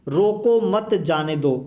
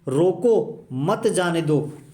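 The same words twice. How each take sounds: First: The pause comes after मत. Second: The pause comes after रोको.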